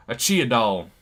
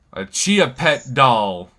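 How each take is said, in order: First: Texas twang with a laugh in it, slowed. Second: Slow, drawn-out Texas twang, a bit louder. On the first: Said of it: "Saying that with a twang". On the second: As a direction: stretch it out in a put-on Texas twang. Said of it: "using this accent here". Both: Pretend.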